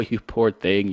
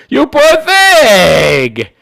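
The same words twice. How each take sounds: First: Said in the usual way. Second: Much higher, louder, very slow sarcastic coo; hammed-up syrupy sarcasm; mock sympathy. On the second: Shown as a demonstration. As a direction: drag out the fake pity on "thing".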